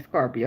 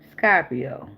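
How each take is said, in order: First: Said in the usual way. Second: Put-on "Scorpio" as "Scah-pio", Southern accent; imitated Southern accent. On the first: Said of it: "He types the accent". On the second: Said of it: "you even type in your accent".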